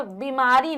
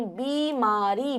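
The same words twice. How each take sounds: First: बीमारी as 'bimaari'; short i. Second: बीमारी as a slow 'beee-maa-ree'; slow, drawn बीमारी syllable by syllable; long ee. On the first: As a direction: clip the first vowel of बीमारी. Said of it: "बीमारी नहीं". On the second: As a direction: stretch the first vowel of बीमारी. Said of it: "बड़ी". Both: Shown as a demonstration.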